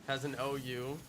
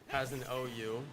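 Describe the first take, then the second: The two takes are said the same way.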